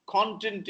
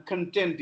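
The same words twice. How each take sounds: First: "Content" as CON-tent; high stressed CON in "Content"; noun stress. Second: "content" as con-TENT; weak first syllable, stressed TENT in "content"; adjective stress. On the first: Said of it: "Content is noun". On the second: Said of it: "I'm content is adjective". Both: Shown as a demonstration.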